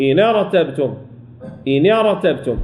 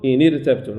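First: إن ارتبتم with a full, thick r; correct heavy ra. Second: إن ارتبتم with a thin, light r; wrong thin ra. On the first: Teacher correcting the mistake, إن ارتبتم with heavy ra. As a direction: keep the ra velarized in ارتبتم. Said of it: "نقول إن ارتبتم". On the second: Teacher demonstrating the mistake, إن ارتبتم with thin ra. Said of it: "غلط أن نقول". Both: Shown as a demonstration.

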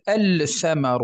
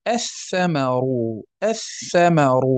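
First: الثمر with the L sounded, "al-thamaru"; الثمر as the wrong take, L kept separate; unassimilated lam. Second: الثمر as "ath-thamaru", lam silent; assimilated lam. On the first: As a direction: pronounce a clear, held lam before the tha in الثمر. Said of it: "لا نقول الثمر". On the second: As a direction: hold a doubled tha in الثمر. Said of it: "أدغمنا تلك اللام في الثاء". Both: Shown as a demonstration.

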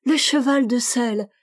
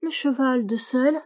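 First: Put-on child's bright exclamation, falling at the end; a light child's cry of delight; exclaimed. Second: Rising, puzzled question, higher; child's wondering question; almost astonished. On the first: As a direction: announce it like a discovery. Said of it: "l'enfant dit". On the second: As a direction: ask it in gentle surprise. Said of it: "d'un ton presque étonné". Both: A narrator's reading.

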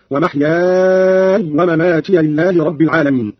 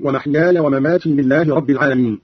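First: ومحياي drawn very long to a still y, ومماتي ending mamatiya; long madd. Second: Said in the usual way. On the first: Shown as a demonstration. Teacher showing Qalun's reading, ومحياي held long, ومماتي as mamatiya. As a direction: stretch ومحياي as mahyaaaay, then say ومماتي as mamatiya. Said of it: "بإسكان ياء محياي فيصير عنده مدا لازما". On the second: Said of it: "قرأ قالون بإسكان ياء محياي".

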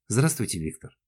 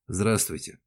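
First: Said in the usual way. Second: Terse, dry greeting; understated cool acknowledgement; dry reply. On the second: A narrator's reading. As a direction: return the greeting drily, without warmth. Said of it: "сухо ответил он".

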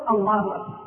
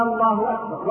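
First: Said in the usual way. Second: Takbir with the opening hamza of الله stretched into a question; wrong takbir. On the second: Shown as a demonstration. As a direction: wrongly lengthen the first vowel of "الله". (تكبير خاطئ بمد همزة الله) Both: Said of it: "والصواب أن نقول".

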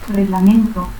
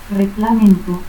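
First: Said in the usual way. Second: Reglamento as "reclamentu"; K for G and final u in Reglamento. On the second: Shown as a demonstration. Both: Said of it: "confusión de la G y que".

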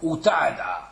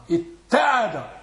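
First: أتعد lower, first consonant unmerged before a single t; original unassimilated form. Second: اتعد with a long, held double t; assimilated doubled t. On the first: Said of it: "وإلا فأصله كيف هو". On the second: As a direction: lean slowly on the merged t in اتعد. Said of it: "وقع الإدغام". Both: Shown as a demonstration.

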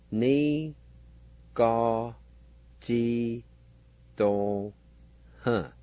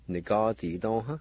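First: "Ni, ga, ji, dong, huh" in separate, drawn-out syllables; syllable-by-syllable pronunciation. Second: "Ni, ga, ji, dong, huh" run together as one word; whole-word pronunciation. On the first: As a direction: sound out "Ni, ga, ji, dong, huh", pausing after each. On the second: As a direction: join "Ni, ga, ji, dong, huh" without pauses. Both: Shown as a demonstration. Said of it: "is pronounced like this".

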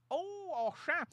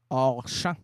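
First: High squeal "hors champ!"; amazed. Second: Said in the usual way. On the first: Shown as a demonstration. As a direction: gasp it out, delighted. ("hors champ" lancé en aigu, émerveillé)

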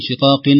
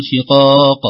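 First: شقاق stopped with an "-in" ending; wrong tanween stop. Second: Loud شقاق ending on a bare qaf, no nun; stopped ending. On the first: Teacher showing what not to say when stopping, tanween. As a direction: end شقاق on a sounded nun. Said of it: "ما نقول". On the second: Teacher showing how to pause on it, stopped ending. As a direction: stop شقاق on a bouncing final q. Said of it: "لو وقفنا نقول". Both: Shown as a demonstration.

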